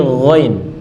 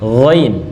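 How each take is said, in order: No difference in how they are said.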